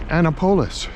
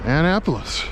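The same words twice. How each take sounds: First: Annapolis said AN-uh-po-lis, a long o in the third syllable; his own old local way of saying Annapolis. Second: Annapolis said an-NAP-uh-lis, stress on the second syllable. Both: Shown as a demonstration. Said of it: "as I have been known to pronounce it in times past".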